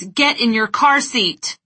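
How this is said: It is said loudly in an angry tone. "With eyes wide, big gestures, and a loud, angry tone of voice"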